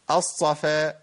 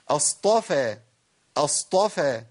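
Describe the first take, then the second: First: The t-sound is replaced by a hissing s-sound. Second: A clear emphatic t-sound follows the s-sound. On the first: The speaker calls it wrong. "فين الطاء؟ ... ابدلت الطاء بصاد" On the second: The speaker calls it right. "الصفا ايه؟"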